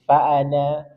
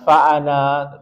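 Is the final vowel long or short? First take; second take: short; long. First: The final vowel is kept short. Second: The final vowel is drawn out long. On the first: The speaker calls it right. "tapi fa'ana" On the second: The speaker calls it wrong. "jangan sampai dibaca fa'ana"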